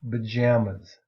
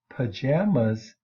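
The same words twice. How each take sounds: First: The first sound is a voiced B. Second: The first sound is a voiceless P. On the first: "but it becomes B, voiced, and we say pajamas" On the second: "the P sound is unvoiced"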